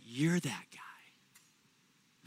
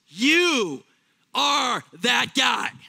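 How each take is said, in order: First: It is said softly. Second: It is said loudly.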